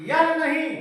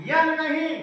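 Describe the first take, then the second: The two takes are said the same way.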